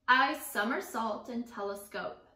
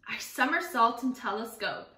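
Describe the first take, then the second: First: It is read a little more slowly. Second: It is read at a normal pace.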